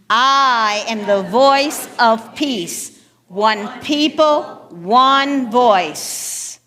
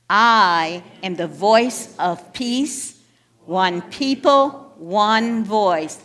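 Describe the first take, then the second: First: It is said loudly, almost shouted. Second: It is said at normal volume.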